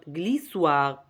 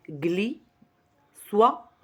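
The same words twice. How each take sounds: First: Said in the usual way. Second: GLISSOIR broken apart, gli... soir; two slow, separate syllables for glissoir. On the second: Shown as a demonstration. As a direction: leave a long gap between "gli" and "soir" in glissoir. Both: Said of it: "il y a seulement deux syllabes".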